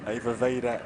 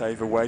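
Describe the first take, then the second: First: The surname has two syllables. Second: The surname has one syllable. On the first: The speaker calls it right. "Two syllables" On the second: The speaker calls it wrong. "Not Ava Wade was my get out"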